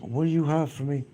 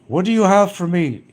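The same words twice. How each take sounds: First: It is said in a soft voice. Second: It is said in a normal voice.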